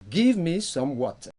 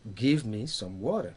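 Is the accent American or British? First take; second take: British; American. First: The t in water is a clear t. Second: The t in water sounds like a d. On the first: "le T est prononcé" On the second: "le T a été remplacé par D"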